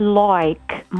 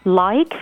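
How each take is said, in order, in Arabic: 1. يُمدّ الصوت بطريقة أسترالية. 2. يُنطق الصوت بطريقة غير أسترالية. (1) "الأستراليين بيزودوا شوية تبقى" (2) "عندكم الساوند اي"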